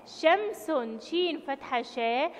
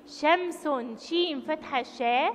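No difference in how they are said.

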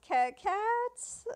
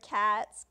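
First: Imitated stutter on "cats", rising high into a question; higher-pitched, stammered "Ca-, cats?". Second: Said in the usual way. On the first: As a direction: trip over the first syllable of "cats", then pitch it up. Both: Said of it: "he, like, stutters the word cats".

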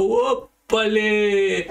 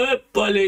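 First: Very slow, high "¡ópale!" with the vowels stretched; drawn-out mock yelp. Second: Mock startled yelp. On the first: Ugarte realizing the pole is falling, a slow stretched-out yelp. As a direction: stretch "¡ópale!" out long as the pole keeps going over. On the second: Retelling how Ugarte felt the pole tip, a short high startled yelp. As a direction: play the guy startled when the pole starts leaning.

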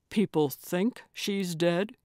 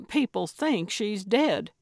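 First: "dead" rises into a question; echoed question. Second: "dead" falls as a firm statement; statement, falling on dead. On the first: Dave echoes Gertrude's claim back at her, questioning rise on "dead". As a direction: repeat it back, lifting "dead" into doubt. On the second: Gertrude explains the life or death part to Dave, emphatic statement. Character states it, listener echoes. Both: Acted.

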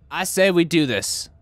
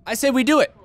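First: Said in the usual way. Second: High excited. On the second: Shown as a demonstration.

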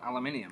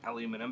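First: "aluminium" with five syllables, high; higher "aluminium", extra I before the end; corrected pronunciation. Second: "aluminum" in four syllables, uh-LOO-min-um; softer "aluminum", stressed on LOO; rejected pronunciation. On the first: Shown as a demonstration. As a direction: say "aluminium" as al-uh-MIN-ee-um. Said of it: "that's al-, aluminium". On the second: Retold or imitated. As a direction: say "aluminum" without the final I sound. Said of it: "you wouldn't pronounce that".

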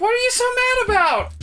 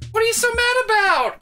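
First: High whine, stress you; mocking Vanessa. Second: High whine, stress mad; mocking Vanessa. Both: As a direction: whine it at him. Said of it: "mocks Vanessa".

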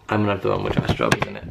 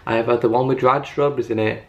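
First: Much lower, quick goofy voice; deep silly voice. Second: Said in the usual way. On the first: Pretend. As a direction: drop into a comic low voice.

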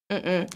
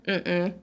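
The two takes are said the same way.

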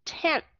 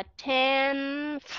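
First: Tenth with a dental N, tongue tip between the teeth; correct pronunciation. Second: Tenth with the tongue tip raised for a full N; wrong pronunciation. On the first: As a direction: say tenth right, slowly, with no raised N. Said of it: "Mà chúng ta sẽ đọc là tenth". (đọc đúng tenth, đầu lưỡi giữa hai hàm răng) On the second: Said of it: "không có đọc là tenth, không đọc được". (đọc sai tenth, đưa đầu lưỡi lên cho âm N) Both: Shown as a demonstration.

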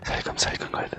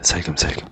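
First: Unvoiced hushed whisper; whispering while hiding. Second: Very soft, barely voiced murmur; whispering while hiding. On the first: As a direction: whisper so the witch can't hear. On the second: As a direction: hush it, almost a whisper. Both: Real, not acted.

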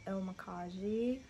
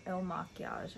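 First: Il Makiage said as "il ma-KAH-zhee"; first-guess pronunciation. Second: Il Makiage said as "il ma-kee-AHZH"; corrected pronunciation. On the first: Vlogger naming the makeup brand, Il Makiage as "ma-KAH-zhee". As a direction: end Il Makiage on a "-zhee" sound. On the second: Vlogger correcting the brand name, Il Makiage as "ma-kee-AHZH". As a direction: end Il Makiage French-style on "-AHZH". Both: Real, not acted. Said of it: "I think is how you say it".

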